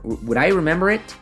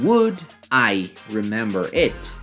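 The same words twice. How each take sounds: First: The D runs straight into the next vowel. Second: The D is kept separate from the next vowel. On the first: "you just say" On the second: "instead of saying"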